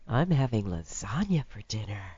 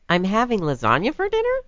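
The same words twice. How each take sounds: First: It is said in a seductive way. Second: It is said as a question.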